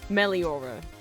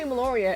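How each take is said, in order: First: The middle sounds come out as li-o. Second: The middle sounds come out as lo-ri. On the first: The speaker calls it right. "It's Meliora" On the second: The speaker calls it wrong. "I always say Meloria. It's not Meloria"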